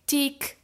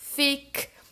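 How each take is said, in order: First: It begins with a T sound. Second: It begins with an F sound. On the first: "agora corrigi pro errado" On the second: "pronunciar esse TH com um somzão forte de F"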